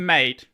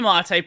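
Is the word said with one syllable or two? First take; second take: one; two. First: It is said as one syllable, rhyming with 'late'. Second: It is said as two syllables, ending in 'ay'. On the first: The name is read as the common word. "Otherwise, it's mate" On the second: The name is read as the accented word. "if you want it to be mate, put a little a little squiggly line above it"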